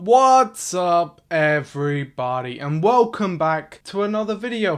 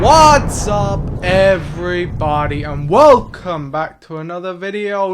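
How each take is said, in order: First: The greeting sounds flat and unexcited. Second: The greeting sounds lively and excited.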